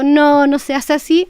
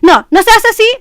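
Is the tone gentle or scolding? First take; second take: gentle; scolding. First: It is said in a soft, gentle tone. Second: It is said in a stern, scolding tone. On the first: The child is being corrected kindly. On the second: The child is being reprimanded.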